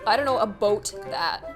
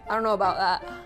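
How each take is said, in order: First: The word 'about' sounds like 'a boat'. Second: The word 'about' ends with an almost silent T. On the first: This is how most people around her say it. "Most Canadians say a boat rather than a boot" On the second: This is how she herself says it. "It's like almost like a silent T"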